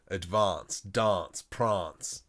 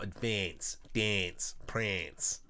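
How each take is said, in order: First: It is said the Adelaide way. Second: It is said the general Australian way. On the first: "So I learnt"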